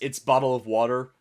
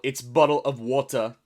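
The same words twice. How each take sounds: First: It is said in an American accent. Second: It is said in a British accent.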